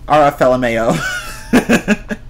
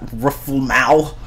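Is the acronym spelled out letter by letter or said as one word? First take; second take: letter by letter; one word. First: Each letter is said separately. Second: The letters are blended into one word. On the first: The speaker calls it right. "I'm not even going to pronounce it as one word" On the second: The speaker calls it wrong. "What is that? Ruffle-mow? No"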